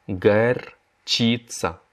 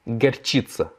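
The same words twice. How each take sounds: First: Горчица drawn out syllable by syllable; very slow repeat. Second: Said in the usual way. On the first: Shown as a demonstration. Teacher models the word for students, very slowly. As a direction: stretch горчица slowly for learners. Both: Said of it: "La moutarde".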